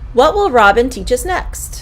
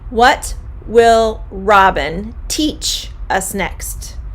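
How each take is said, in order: First: It is said quickly and smoothly. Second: It is said slowly and carefully.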